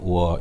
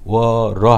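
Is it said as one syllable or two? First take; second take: one; two. First: It is said as one short syllable. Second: It is said as two syllables, linked with r. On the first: The speaker calls it right. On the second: The speaker calls it wrong. "워러 하지 않고"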